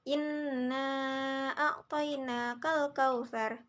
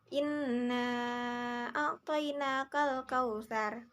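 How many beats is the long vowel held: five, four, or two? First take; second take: four; five. First: The long vowel is held for four beats. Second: The long vowel is held for five beats. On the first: "empat harakat" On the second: "lima harakat"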